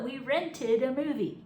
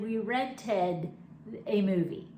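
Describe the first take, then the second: First: It is said quickly with the ending slurred. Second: It is said carefully with the ending clear. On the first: "when you say it quickly, if you slur it, you might say"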